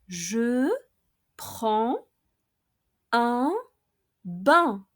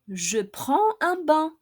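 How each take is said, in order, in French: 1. La phrase est prononcée lentement. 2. La phrase est prononcée à vitesse normale. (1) "I'll pronounce each expression slowly, first twice" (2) "then at normal speed"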